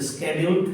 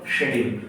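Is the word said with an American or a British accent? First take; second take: American; British. First: The word is said with an American accent. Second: The word is said with a British accent. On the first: "In American language it is a schedule" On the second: "in British language it is called schedule"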